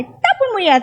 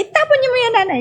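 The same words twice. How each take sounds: First: Angry doctor. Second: High, sharp scolding from the doctor; angry doctor. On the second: Angry doctor scolds the mother over the medicine. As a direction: order her to throw it away. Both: Retold or imitated. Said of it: "Galit na galit sa akin".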